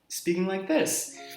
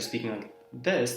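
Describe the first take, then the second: First: The voice is raised to a higher pitch. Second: The voice is at its normal, lower pitch.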